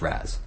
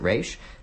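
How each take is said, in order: First: The name ends with a 'z' sound. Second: The name ends with an 'sh' sound. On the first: This follows how the letters sound together. "might actually uh, be pronounced Raz" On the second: This is how the comics and video games say it. "pronounce it Raish"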